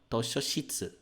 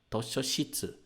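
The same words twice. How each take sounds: No difference in how they are said.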